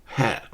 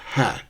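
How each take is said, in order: No difference in how they are said.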